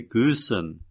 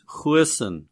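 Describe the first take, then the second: First: Goosen with a hard G and long oo; American pronunciation. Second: Goosen with a throaty Afrikaans opening sound; Afrikaans pronunciation. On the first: Showing American viewers their version, Goosen in American pronunciation. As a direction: say Goosen as Americans would, GOO-sen. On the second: Naming the golfer for viewers, Goosen in Afrikaans pronunciation. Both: Shown as a demonstration. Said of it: "as you Americans would say".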